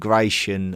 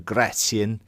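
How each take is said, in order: First: The name is said the usual English way. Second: The name is said closer to the original. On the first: This is the familiar modern name. "I don't mind calling Gratian" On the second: This is closer to the original name. "more closely um, linked to how you would probably pronounce his name"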